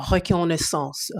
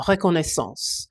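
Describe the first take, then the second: First: Said in the usual way. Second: "reconnaissance" said the French way, with a French R and a nasal end; French pronunciation. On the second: Shown as a demonstration. Repeating the word to a viewer in proper French. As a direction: say "reconnaissance" as a French speaker would, rolling the R in the throat.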